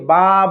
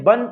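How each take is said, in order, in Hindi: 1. शब्द लंबे 'आ' स्वर पर खत्म होता है। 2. शब्द 'न' की ध्वनि पर खत्म होता है।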